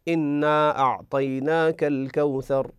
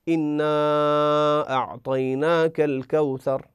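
First: The long vowel is held for two counts. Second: The long vowel is held for five counts. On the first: "نستطيع أن نمده حركتين" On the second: "5 حركات"

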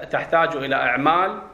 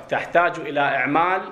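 Both takes have the same delivery.

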